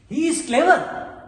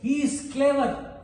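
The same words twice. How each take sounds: First: It is said with a questioning intonation. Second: It is said as a plain, complete statement. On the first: It asks whether it is true. "if I just put a question mark here" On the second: It simply states a fact. "full stop, so everything is fine. It is a complete statement"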